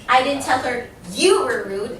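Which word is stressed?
I. The word I carries the stress. Someone else said it. "I said somebody else did it"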